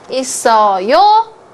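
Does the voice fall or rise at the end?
rise. The pitch rises at the end. It asks whether someone has siblings. "This is a question, so increase your intonation at the end of sentence"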